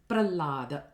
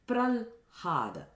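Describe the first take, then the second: First: There is no h sound at all. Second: The h sound comes after the l. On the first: "the h is totally lost" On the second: "where you interchange the h sound and the l sound"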